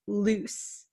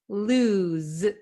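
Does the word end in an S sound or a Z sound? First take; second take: S sound; Z sound. First: The word ends with a hissing S sound. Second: The word ends with a buzzing Z sound. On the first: The speaker calls it wrong. "it's not loose" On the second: The speaker calls it right. "It's lose, z. Okay, this S sounds like a Z"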